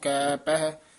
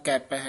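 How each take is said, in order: First: The two words are said with a break between. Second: The two words are run together without a break. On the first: "ਨਾ ਵੱਖਰਾ ਕਹਿਣਾ" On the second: "ਨਾ ਕਹਿਣਾ ਕੈਪ ਹੈ ਇਕੱਠਾ"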